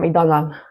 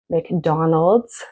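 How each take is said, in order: First: The final consonant cluster is cut short. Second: The final consonant cluster is fully pronounced. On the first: The speaker calls it wrong. "you might hear" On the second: The speaker calls it right. "instead of saying"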